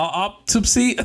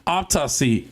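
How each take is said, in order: First: "autopsy" said higher as "ahp-TUP-see", working it out; careful retry. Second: "Autopsy" said as "ahp-TAH-see", still slightly off; mispronounced word. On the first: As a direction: sound out "autopsy" slowly. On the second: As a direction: try "Autopsy" and miss a syllable. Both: Real, not acted. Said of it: "I can't say it right".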